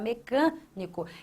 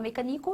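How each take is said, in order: First: The stress falls on the syllable 'can'. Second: The stress falls on a syllable other than 'can'. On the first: The speaker calls it right. "você fala mecânico" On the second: The speaker calls it wrong. "você não fala mecânico"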